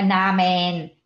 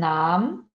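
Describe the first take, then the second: First: The final -en is pronounced fully. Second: The final -en is nearly silent. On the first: The speaker calls it wrong. "Não é namen" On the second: The speaker calls it right. "você meio que só escuta o um... o en fica mudo"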